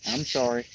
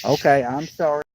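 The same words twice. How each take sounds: First: Soft apology through a yawn; sorry said while yawning. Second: Apologizing mid-yawn; words stretched by a yawn. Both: Real, not acted. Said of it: "No more yawning".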